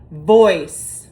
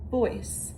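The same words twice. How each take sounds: First: The word is projected at full loud volume. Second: The word is said at normal talking volume. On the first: "you say it like you mean it and you're projecting it, so the loudest volume" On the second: "Level two would be at a conversational level"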